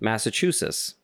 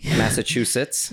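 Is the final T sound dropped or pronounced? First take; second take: dropped; pronounced. First: The final T sound is dropped. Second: The final T sound is pronounced. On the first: The speaker calls it wrong. "Nope. You didn't say the T" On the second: The speaker calls it right.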